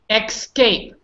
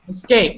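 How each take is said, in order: First: It begins with an added k sound: eks-cape. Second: It begins with a plain s sound: es-cape. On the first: The speaker calls it wrong. "Here's the wrong wrong one" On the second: The speaker calls it right. "Good. I like that"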